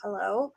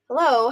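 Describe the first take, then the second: First: It is said wearily, with a sigh. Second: It is said brightly and eager to help.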